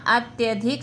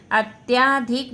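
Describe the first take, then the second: First: अत्यधिक said with a short "a" after "t": at-ya-dhik; correct form. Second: अत्याधिक said with a long "aa" after "t": at-yaa-dhik; wrong spelling read out. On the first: Teacher to students, giving the correct अत्यधिक with a short a. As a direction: keep the vowel in अत्यधिक short and quick. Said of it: "अत्यधिक शुद्ध word". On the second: Teacher to students, showing the wrong form अत्याधिक with a long aa. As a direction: stretch the "aa" in अत्याधिक to mark the error. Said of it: "अत्याधिक नहीं होगा". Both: Shown as a demonstration.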